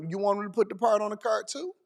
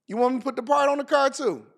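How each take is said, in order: First: Said in the usual way. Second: Higher, quicker disbelieving question; incredulous repeat. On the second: Real, not acted. Host repeats the absurd car-part demand, incredulous. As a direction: throw the question back, pitched up in disbelief.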